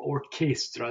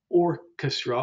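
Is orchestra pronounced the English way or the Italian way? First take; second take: Italian; English. First: It is pronounced the Italian way. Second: It is pronounced the English way.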